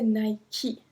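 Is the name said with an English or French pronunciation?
English. It is said with an English pronunciation. The speaker calls it wrong.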